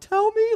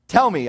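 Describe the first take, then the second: First: It is said scared, with a cracking voice. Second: It is said in a steady, plain voice.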